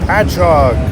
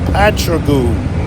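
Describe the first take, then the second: First: The name ends with an 'og' sound. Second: The name ends with an 'oo' sound. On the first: A local said it. The speaker calls it right. "long-time Long Islanders will correct them" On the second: Someone unfamiliar with the area said it. The speaker calls it wrong. "A lot of out-of-towners mispronounce this something awful"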